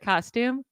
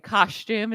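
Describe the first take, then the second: First: The word is said without an extra H-like sound. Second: The word is said with an extra H-like sound. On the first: The speaker calls it right. "instead of" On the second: The speaker calls it wrong. "up north people say"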